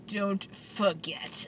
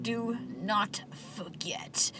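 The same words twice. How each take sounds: First: Very slow, every word spaced out; clipped word by word. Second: Very slow and softer, each word spaced out. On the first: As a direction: say each word like it ends in a period. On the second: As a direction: put a full stop after every word. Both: Retold or imitated. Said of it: "like there's a period after every letter".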